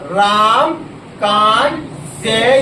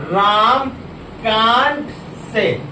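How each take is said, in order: Both takes have the same delivery.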